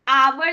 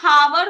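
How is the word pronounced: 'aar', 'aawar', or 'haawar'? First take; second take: aawar; haawar. First: It is said with a w glide, 'aawar'. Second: It is said with an h and a w glide. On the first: "आवर नहीं होता है" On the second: "ना हावर होता है"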